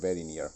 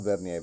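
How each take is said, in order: First: The word is said like the phrase 'very near'. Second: The word is said as two syllables, 'vern-yer'. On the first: The speaker calls it right. "he said very near" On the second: The speaker calls it wrong. "not Vernier"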